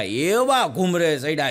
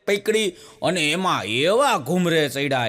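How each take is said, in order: First: એવા stretched slow; slow down on એવા ઘૂમરે ચડ્યા; slowed emphasis. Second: Said in the usual way. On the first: Shown as a demonstration. Comedian builds up the spinning, slowly.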